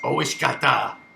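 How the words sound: It is said in a deep voice.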